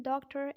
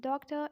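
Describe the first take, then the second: First: American "doctor" with a sounded final R; American-accent demo of doctor. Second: British "Doctor" with a silent final R; British-accent demo of Doctor. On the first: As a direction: say doctor the American way, curl the last R. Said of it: "in American accent". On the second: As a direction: say Doctor the British way, ending on a schwa. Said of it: "in British accent". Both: Shown as a demonstration.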